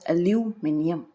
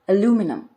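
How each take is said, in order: First: It is said with a British pronunciation. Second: It is said with an American pronunciation. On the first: "while in British English, it's pronounced as aluminium" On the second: "In American English, it's pronounced as aluminum"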